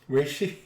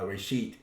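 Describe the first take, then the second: First: The word ends with a soft th sound. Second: The word ends with a hard t sound. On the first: "it winds up being th" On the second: "Some people do pronounce uh, reshith as uh, uh, reshit"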